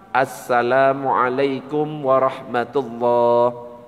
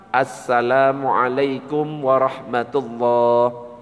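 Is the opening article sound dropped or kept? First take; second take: kept; kept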